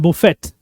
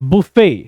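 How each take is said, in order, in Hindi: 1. शब्द के अंत में साफ़ T की आवाज़ आती है। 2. शब्द स्वर पर ख़त्म होता है, T की आवाज़ नहीं आती। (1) "इसको हम लोग मिस प्रोनाउंस करते हैं" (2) "इस तरह के सिस्टम को बुफे कहा जाता है"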